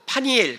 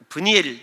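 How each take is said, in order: First: The name begins with the syllable 'pa'. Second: The name begins with the syllable 'beu'. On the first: The speaker calls it right. "원래는" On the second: The speaker calls it wrong. "이렇게 발음하는 것이 아니고"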